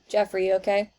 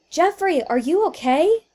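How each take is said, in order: First: It is said flatly, without concern. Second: It is said in a worried, concerned voice.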